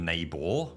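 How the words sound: The final R sound is clearly pronounced. "in, say, American pronunciation, there would be more pronunciation of the R"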